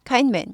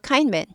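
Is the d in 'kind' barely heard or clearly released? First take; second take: barely heard; barely heard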